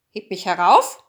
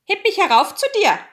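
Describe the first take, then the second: First: Loud, lower-pitched frog demand; threatening frog. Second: High, loud, quick frog call. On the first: Frog crawls to the bed and threatens, loud and low. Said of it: "kam er gekrochen und sprach". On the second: Frog calls up from beside the chair, high and loud. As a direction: demand it fast and high-pitched. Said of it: "Da saß er und rief". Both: A narrator's reading.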